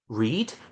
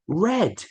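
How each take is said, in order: First: The vowel is long, like 'reed'. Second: The vowel is short, like 'red'. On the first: It is the present tense. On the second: It is the past tense.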